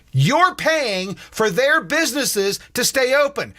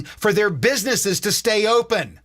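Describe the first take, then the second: First: "You're paying for their businesses to stay open" said higher and slower; slow emphatic repeat. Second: Said in the usual way. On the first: Shown as a demonstration. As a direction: spell out "You're paying" word by word, high.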